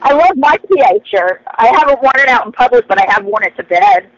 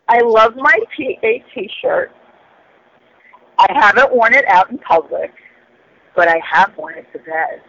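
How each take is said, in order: First: It is said at a normal pace. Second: It is said slowly and seductively.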